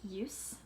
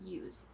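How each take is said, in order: First: The word ends with a hissing S sound. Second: The word ends with a buzzing Z sound. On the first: It is not the verb form. The speaker calls it wrong. "if you look at the spelling, it's an S. But when we say the word, we don't say use" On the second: It is the verb, to use something. The speaker calls it right. "we pronounce that letter as a Z sound"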